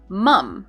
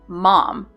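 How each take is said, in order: First: The vowel sounds like the one in 'mum'. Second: The vowel sounds like the one in 'mom'. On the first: "And they say this word like mum" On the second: "And we say this word mom"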